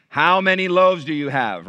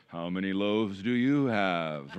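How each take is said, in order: First: Said in the usual way. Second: Low, slow, droning mock repeat of Jesus' question; teasing, drawn-out "how many loaves do you have"; weary mock disciple. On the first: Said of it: "Look at your Bible". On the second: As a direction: mimic a catchphrase the way kids tease dad. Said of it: "they would go".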